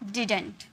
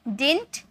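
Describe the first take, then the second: First: The word is said with the middle d. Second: The word is said without the middle d. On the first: "या तो आप इसे डिडंट में pronounce करो" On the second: "या तो आप इसे डिंट में प्रोनाउंस करो"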